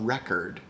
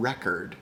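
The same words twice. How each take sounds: First: The second syllable has a reduced 'uh' vowel. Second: The same.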